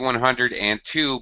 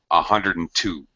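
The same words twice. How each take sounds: First: Each word is pronounced fully and clearly. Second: The words are blended and sounds are dropped. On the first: "Usually we actually say one hundred two" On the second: "we reduce the pronunciation greatly. So it sounds like"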